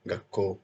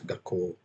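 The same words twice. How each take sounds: First: The final o vowel is short. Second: The final o vowel is held long. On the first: The speaker calls it wrong. "with only ko character" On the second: The speaker calls it right. "for the prolonged vowel sound"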